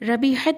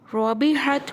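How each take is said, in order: First: The r is said thin, with a flat mouth. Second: The r is said full, with rounded mouth. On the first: The speaker calls it wrong. "रबिहत नहीं पढ़ा जाएगा" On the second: The speaker calls it right. "रॉ रबिहत"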